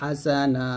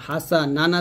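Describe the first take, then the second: First: The word ends on a long vowel. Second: The word ends with an n sound. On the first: The reader stops at this word. "এখানে থামলে হবে হাসানা" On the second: The reading continues without stopping. "হাসানান আছে"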